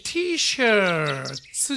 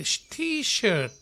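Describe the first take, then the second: First: Drawn-out T-SHIRTS with a 'tsu' ending; Japanese-style T-shirts. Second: T-SHIRT ending on a plain 't', no 's'; singular English T-shirt. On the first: Teacher shows what not to say, drawn-out T-shirts ending in 'tsu'. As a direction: stretch T-shirts and end it in katakana 'shaatsu' style. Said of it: "じゃなくて". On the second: Teacher models the right form, T-shirt with no final s. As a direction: say T-shirt higher, stopping cleanly on the t. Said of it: "というような言い方をしてますね". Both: Shown as a demonstration.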